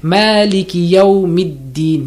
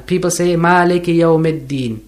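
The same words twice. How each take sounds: First: Maliki yawmiddin with a short i in -middin; correct mid. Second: Maliki yawmiddin with e vowels, maleke yawmedin; the common mistake, vowels flattened to e; wrong version. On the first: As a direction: say yawmiddin with mid, not med. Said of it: "Not med". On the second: Teacher imitating the common error. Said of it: "It's not Maddin". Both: Shown as a demonstration.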